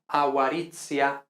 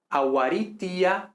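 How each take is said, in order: First: "aguaritia" said a-wa-RIT-sia; "aguaritia" with an affricated ts. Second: "aguaritia" slowly, with a plain hard T before "ia"; slow "aguaritia", T kept pure; T always T. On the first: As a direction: turn the T of "aguaritia" into "ts". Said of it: "entonces no aguaritia". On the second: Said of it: "pronunciamos siempre P, T, K". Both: Shown as a demonstration.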